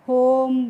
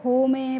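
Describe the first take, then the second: First: The word ends with no final vowel. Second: The final e is sounded as a vowel. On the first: The speaker calls it right. "कैसे पढ़ना है" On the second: The speaker calls it wrong. "इस तरीके से नहीं पढ़ना है"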